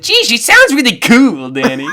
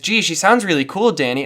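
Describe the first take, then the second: First: It is said in a Gil Faizon impression. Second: It is said in the speaker's normal voice.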